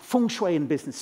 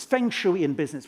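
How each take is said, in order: First: "feng shui" said as fung shway; proper "feng shui". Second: "feng shui" said as feng shooey; guest's "feng shui". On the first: Shown as a demonstration. Comedian giving a book title his way, fung-shway. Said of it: "we all should say feng shui". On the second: Retold or imitated. Comedian giving the book title the guest's way, feng shooey. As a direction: give "feng shui" a FENG and a SHOO-ee. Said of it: "I'm sure you'd say feng shui".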